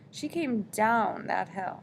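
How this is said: The word down is stressed with wonder.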